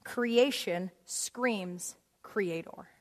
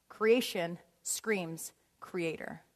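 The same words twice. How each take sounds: First: Each word weighed, creation stressed; emphatic slow. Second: Repeated lower and slower, creation stressed; softer slow repeat. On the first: Preacher drives home the point to the congregation, slow and weighty. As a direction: let creation screams creator land slowly. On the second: Preacher repeats the point softly to the congregation, slow. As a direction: echo it quietly, word by word. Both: Shown as a demonstration. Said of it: "In other words".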